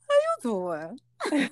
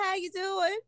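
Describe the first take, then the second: First: It is said in a put-on imitating voice. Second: It is said in her normal voice.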